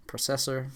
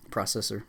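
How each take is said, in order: First: Processor said as PRO-sessor, long O like in go. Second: Processor said as PROSS-essor, short O like in cross. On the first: Reading a word list aloud, processor with long O. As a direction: open with a long O, PRO-cessor. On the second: Reading a word list aloud, processor with short O. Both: Shown as a demonstration.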